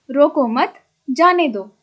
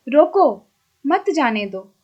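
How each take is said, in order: First: "रोको मत" said together, then "जाने दो"; pause after मत. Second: "रोको" set apart, then "मत जाने दो"; pause after रोको. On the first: Teacher showing the meaning flipped by one mark, pause after मत. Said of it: "एक चिन्ह के कारण उपर्युक्त दोनों वाक्यों का अर्थ भिन्न". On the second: Teacher reading an example of how a comma changes meaning, pause after रोको. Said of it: "नीचे लिखे वाक्यों को पढ़िए". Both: Shown as a demonstration.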